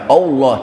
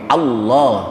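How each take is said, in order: First: The first vowel is a rounded o. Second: The first vowel is a clear open a. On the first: The speaker calls it wrong. "jangan baca Allah" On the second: The speaker calls it right. "tapi Allah"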